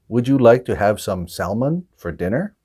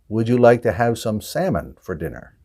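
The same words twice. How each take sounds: First: The L in salmon is pronounced. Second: The L in salmon is silent. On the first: The speaker calls it wrong. "the wrong answer there is salmon" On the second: The speaker calls it right. "We don't pronounce that L"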